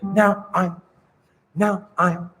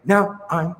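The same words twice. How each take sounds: First: NOW and I'm set apart; separated words. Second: Said in the usual way. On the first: Shown as a demonstration. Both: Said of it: "I'd like you to separate".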